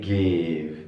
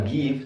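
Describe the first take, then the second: First: Slow 'give' with a short, lowered 'ih'; correct lax vowel. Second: 'give' with a tense 'ee', like geev; wrong vowel. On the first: Teacher corrects the reading for students, correct lax vowel. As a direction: draw out 'give' with lax i, near gehv. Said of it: "tapi give". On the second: Teacher shows students how not to read it, wrong vowel. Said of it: "bacanya bukan give". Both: Shown as a demonstration.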